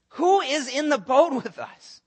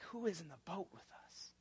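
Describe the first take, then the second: First: Higher, louder, slow stunned question; loud amazed. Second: Very soft, breathless awed question; hushed awe. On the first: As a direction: call it out in wonder. Disciples marvel, first take. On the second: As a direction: barely say it, stunned. Disciples are like, hushed take. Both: Acted.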